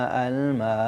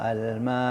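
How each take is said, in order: No difference in how they are said.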